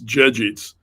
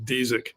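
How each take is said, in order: First: The surname is said with Polish pronunciation. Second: The surname is said with Americanized pronunciation. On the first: "in Polish, it's" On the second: "the Americanized uh, pronunciation's just"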